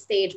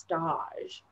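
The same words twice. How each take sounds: First: It sounds like the English word stage. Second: It sounds different from the English word stage. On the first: This is how the word is spelled. "I think it is spelled like stage" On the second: This is how the word is actually pronounced. "but it is pronounced stage"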